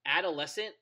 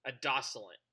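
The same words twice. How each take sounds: First: Said in the usual way. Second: Adoscilent said as ah-DOSS-ih-lent, letters swapped; the wrong adoscilent, stress on DOSS; mispronounced word. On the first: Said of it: "I used to say". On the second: Retold or imitated. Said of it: "I used to say for the longest time".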